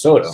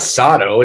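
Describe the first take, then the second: First: The first vowel sounds like 'oh'. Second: The first vowel sounds like 'ah'. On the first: The speaker calls it right. "it's Soto" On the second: The speaker calls it wrong. "it's not Sato"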